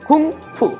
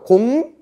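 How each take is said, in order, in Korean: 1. 자음을 강하고 거세게 발음해요. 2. 자음을 부드럽고 약하게 발음해요. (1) "좀 더 세게 읽으면 쿵푸" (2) "중국은 공부를 우리가 똑같이 써요"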